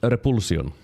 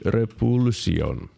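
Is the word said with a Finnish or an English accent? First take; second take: English; Finnish. First: The word is said with an English accent. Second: The word is said with a Finnish accent. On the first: "it's also pronounced repulsion" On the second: "Let's pronounce it like it's a Finnish word"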